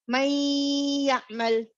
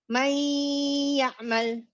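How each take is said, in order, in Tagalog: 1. Nagsasama ang n sa y na may pinahabang nasal na huni. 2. Nagsasama ang n sa y na may pinahabang nasal na huni.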